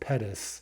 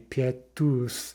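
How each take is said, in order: First: The last syllable has a short 'uh' vowel. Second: The last syllable has an 'oo' vowel. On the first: This is how the name is said in English. "it's pronounced Pettus, right, with that kind of short U" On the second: This is how the name is said in Russian. "with that oos at the end"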